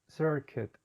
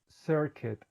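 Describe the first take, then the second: No difference in how they are said.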